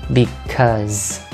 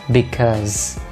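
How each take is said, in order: No difference in how they are said.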